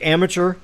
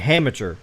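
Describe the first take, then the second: First: The word begins with a plain vowel. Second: The word begins with an h sound. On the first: "when you say amateur" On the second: "it almost sounds like you're saying amateur"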